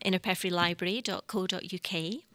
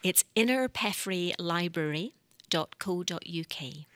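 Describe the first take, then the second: First: It is said fast. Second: It is said slowly.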